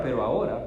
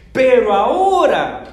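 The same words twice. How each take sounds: First: Said in the usual way. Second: "Pero ahora" shouted, much louder and higher, slow; stress on AHORA. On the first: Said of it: "Usa la misma palabra". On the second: Shown as a demonstration. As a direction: proclaim "ahora" with full force. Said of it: "¿ven el énfasis?".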